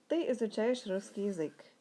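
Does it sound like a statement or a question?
statement. It is said with statement intonation.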